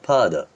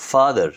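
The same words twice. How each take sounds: First: ফাদার said with a long open a and no r; British father. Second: ফাদার said high and loud with a hard r; the wrong way, ফাদার with the r sounded; wrong r-ful father. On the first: Teacher showing the correct non-rhotic ফাদার. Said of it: "এর উচ্চারণ করবেন ফাদার". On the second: Teacher showing the wrong ফাদার with a rolled r. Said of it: "but এর উচ্চারণ করবেন ফাদার". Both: Shown as a demonstration.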